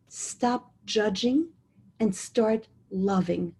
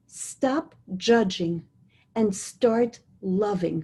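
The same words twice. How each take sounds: First: Slow repeat. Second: Slow emphatic. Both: Shown as a demonstration. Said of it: "I'll say that again".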